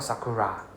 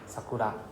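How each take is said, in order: First: The last syllable starts with an English R sound. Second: The last syllable starts with a light L-like sound. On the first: The speaker calls it wrong. "Not sakura. Right? There's no ra" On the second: The speaker calls it right. "So it's just la at the back"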